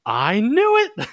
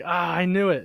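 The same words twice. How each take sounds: First: High, slow and loud, a squealed "I knew it"; imitating her gleeful high squeal of realization; triumphant "I knew it". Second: Milder "I knew it". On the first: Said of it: "she's looks at me and she's like". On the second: Retold or imitated. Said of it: "She's like".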